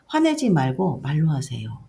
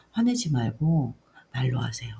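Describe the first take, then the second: First: Lightly voiced child telling mom off; a hint of an insistent child; child's firm plea. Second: Put-on understated, subdued child's plea; retold child's appeal. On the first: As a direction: retell a child's firm request. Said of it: "아이가". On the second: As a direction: retell a child gently asking mom. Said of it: "다시 이렇게 하면서".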